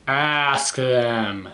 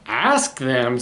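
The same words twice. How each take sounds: First: Drawn-out, level ASK; Piggy. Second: Quick questioning echo, pitch jumping on ASK; puzzled elephant echo. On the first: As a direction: spell out the advice, stretching ASK. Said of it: "says Piggy". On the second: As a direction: echo it as if the idea is new. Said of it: "says Elephant". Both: A narrator's reading.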